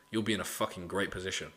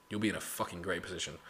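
Both takes have the same delivery.

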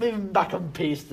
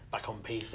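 First: "piste" said properly, with the final t; "back on piste" with a clear st at the end; correct pronunciation. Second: Piste said as "peace", with no t at the end; "peace" clipped to a long ee, no final t sound; jokey mispronunciation. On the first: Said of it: "Moving, moving back on piste". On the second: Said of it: "as they say in Spain". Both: Shown as a demonstration.

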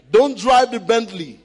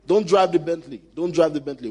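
First: Bentley warning said louder, drive punched; loud stress on drive. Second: Said in the usual way. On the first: Shown as a demonstration.

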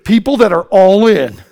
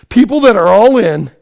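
Both takes have the same delivery.

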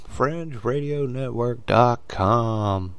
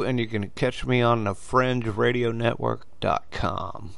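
First: Fringe Radio Network dot com said slowly, each word set apart; deliberate slow plug of the web address; slow and spelled out. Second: Said in the usual way. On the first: Shown as a demonstration.

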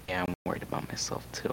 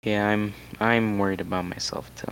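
First: Whispered repeat. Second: Said in the usual way. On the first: Real, not acted. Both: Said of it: "repeated admission".

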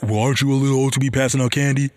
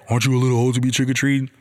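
First: Quick, sneering echo thrown right back; mocking comeback. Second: Quick, sneering imitation of a judgy homeowner; mocking snooty neighbor. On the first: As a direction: mirror the neighbor's tone to mock him. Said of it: "I just wanna counter and be like". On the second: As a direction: toss the question off fast like a nosy neighbor. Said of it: "when somebody tell me that".

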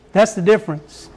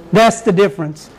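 No difference in how they are said.

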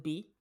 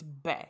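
First: "B" said as the letter name; pronounced like "bee". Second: "Be" said to rhyme with "day"; pronounced like "bay". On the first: Questioning how an actress's surname is said, "B" as "bee". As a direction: say "B" with a long ee, like "bee". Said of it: "Or is it B?". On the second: Correcting how an actress's surname is said, "Be" as "bay". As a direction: say "Be" as "bay", not "bee". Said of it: "I said Be". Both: Shown as a demonstration.

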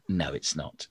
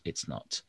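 First: Said in the usual way. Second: Soft unvoiced whisper. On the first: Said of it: "whisper take contrast". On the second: Shown as a demonstration. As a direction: breathe the denial as a whisper. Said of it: "whispered repeat".

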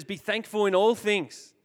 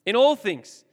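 First: Said in the usual way. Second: "all" hit louder on the repeat; stressed repeat. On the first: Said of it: "I read this verse that says". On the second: Shown as a demonstration. Repeating the verse to the youth group, "all" punched. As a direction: lean hard on "all", louder.

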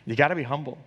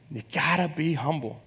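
First: Said in the usual way. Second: Preacher hushing his point for weight; softer, sinking repeat. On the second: Shown as a demonstration. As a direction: let the last repeat sink in quietly. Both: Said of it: "Number one, you gotta be humble".

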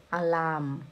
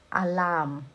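No difference in how they are said.

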